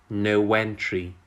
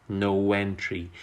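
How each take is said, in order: The two takes are said the same way.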